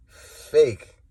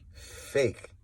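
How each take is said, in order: First: Louder, sharp repeat of Fake; loud accusation. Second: Breathy whisper, barely voiced; a scornful whisper; whispered fake. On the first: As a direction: spit it out loud this time. Calling out fakes, repeated loud. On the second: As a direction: hiss the word under your breath. Calling out fakes, whispered. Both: Real, not acted.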